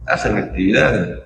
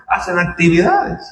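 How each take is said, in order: First: Said in the usual way. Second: Actividades pitched higher with a falling end; raised emphasis. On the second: Acted. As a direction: lift hacen actividades high, then drop. Repite la frase dos veces. (hacen actividades dicho más agudo, con énfasis)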